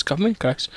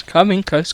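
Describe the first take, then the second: First: "come in close" dropped much softer; "come in close" said softer, drawing the listener nearer; hushed close to the mic. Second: Said in the usual way. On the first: Shown as a demonstration. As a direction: lean in and hush "come in close". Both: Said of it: "Mic bit closer".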